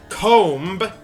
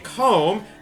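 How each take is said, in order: First: The final b is pronounced. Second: The final b is silent.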